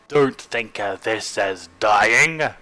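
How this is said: It is said in a put-on voice.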